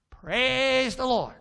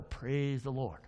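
First: Loud, high, drawn-out bird squawk; talking bird. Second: Low, softer praise; feed the bird its line, low and soft; low prompt to bird. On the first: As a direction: parrot it back loudly and slowly. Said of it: "he's a talking bird". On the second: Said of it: "and I'll go". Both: Acted.

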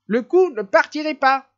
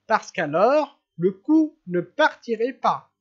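First: "coup" hit much higher and louder, falling on "pas"; gleeful repeated punchline, higher; emphatic repeat. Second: Said in the usual way. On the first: Acted. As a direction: hammer the repeat home, delighted.

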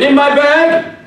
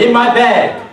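First: High, loud preacher's call. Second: Said in the usual way. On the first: Retold or imitated. Preacher booming at the gang. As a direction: boom it like a pulpit opener. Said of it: "I put on my preacher's voice". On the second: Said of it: "plain take before preacher voice".

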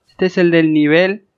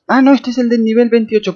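First: Said in the usual way. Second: High, louder sudden realization; surprised realization. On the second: Real, not acted. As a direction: catch yourself in surprise. Realizes which one it is.

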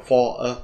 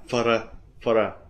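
First: "for a" with a full vowel in "for"; unreduced "for a", two distinct words; full form. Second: "for a" reduced and run together; unstressed "for a" as one light unit; weak form. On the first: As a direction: say "for" fully, separate from "a". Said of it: "không đọc là for a". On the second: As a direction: shrink "for" to "fer", linked to "a". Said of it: "chúng ta đọc dạng nhẹ". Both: Shown as a demonstration.

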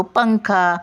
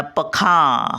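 First: "पंखा." with high nasal "पं", falling on "खा"; पं वर अनुस्वार. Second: "पखा." with no nasal after "प", it moves onto a long "खां"; चुकीच्या जागी टिंब. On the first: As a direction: lift "पं" in "पंखा." as pang-kha. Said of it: "आपण काय बोलतो". ("पंखा." पं उचलून, उंच स्वरात) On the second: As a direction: say "पखा." as pa-khaan, stretching the end. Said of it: "खावं जर टिंब दिलं तर". ("पखा." टिंब खा वर देऊन) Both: Shown as a demonstration.

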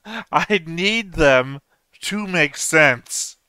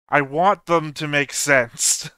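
First: Drawn-out, higher plea, "need" stretched hard; stress on need. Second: Slightly emphatic, slowed, "want" stressed. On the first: Viewer desperate for the plot to add up, stretching "need". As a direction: hit "need" high and hold it, very slowly. Intensified repeat, pleading for sense. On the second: Viewer pleading for the plot to add up, stress on "want". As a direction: lean on the word "want", measured pace. Building desperation to make sense of plot. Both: Acted.

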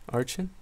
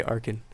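First: "Archin" with a soft ch, as in arch; pronounced with CH. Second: "Arkin" with a hard k in the middle; pronounced with K. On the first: Streamer checking a viewer's alias, "Archin" said with a ch sound. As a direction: say "Archin" as AR-chin, questioning. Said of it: "pronounced it right the first time". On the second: Streamer reading how people said the alias, "Arkin" with a hard k. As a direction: say "Arkin" as AR-kin. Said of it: "People used to say Arkin". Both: Shown as a demonstration.

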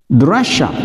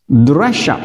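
No difference in how they are said.

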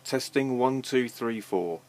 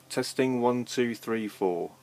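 No difference in how they are said.

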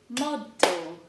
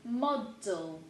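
First: Model, louder, for the class to repeat; louder model, clearly spoken. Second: Said in the usual way. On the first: Shown as a demonstration. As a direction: model said again much louder, firm. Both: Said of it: "two more hiding over here".

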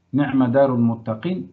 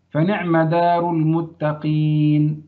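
First: Said in the usual way. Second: Slow example read. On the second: Shown as a demonstration. Teacher reading the example aloud slowly to students. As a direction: read فنعم دار المتقين very slowly, word by word. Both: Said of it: "مثل إيه؟".

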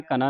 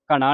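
First: ਘਨਾ with plain dental n; tongue at the teeth for the n in ਘਨਾ; correct consonant shown. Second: ਘਣਾ with retroflex ṇ; wrong consonant shown. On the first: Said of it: "ਨੰਨੇ ਦੀ ਆਵਾਜ਼". (ਘਨਾ ਨੂੰ ਨੰਨੇ ਦੀ ਆਵਾਜ਼ ਨਾਲ ਬੋਲੋ) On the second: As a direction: curl the tongue back for the n in ਘਣਾ. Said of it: "ਘਣਾ ਨਹੀਂ ਕਹਿ ਦੇਣਾ". (ਘਣਾ ਨੂੰ ਣਾਣੇ ਦੀ ਆਵਾਜ਼ ਨਾਲ ਬੋਲੋ) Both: Shown as a demonstration.

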